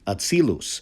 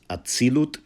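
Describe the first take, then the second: First: The word ends with an s sound. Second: The word ends with a t sound. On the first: This is the traditional religious pronunciation. "that's a Loshen Kodesh pronunciation" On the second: This is the modern Israeli pronunciation. "pronounced atzilut in uh, modern Israeli Hebrew"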